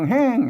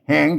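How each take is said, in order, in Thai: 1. คำว่า "แหง" ออกเสียงเป็นเสียงตก 2. คำว่า "แหง" ออกเสียงเป็นเสียงขึ้น (1) "เสียงโท" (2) "เสียงจัตวา"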